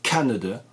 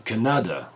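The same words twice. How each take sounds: First: The stress is on the first syllable. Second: The stress is on a later syllable. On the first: The speaker calls it right. "ça s'accentue sur la première" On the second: The speaker calls it wrong. "ou Canada ou je ne sais trop quoi"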